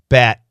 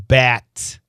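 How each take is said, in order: First: The final t is stopped, not released. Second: The final t is fully released. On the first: "We say bat" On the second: "Perfect pronunciation"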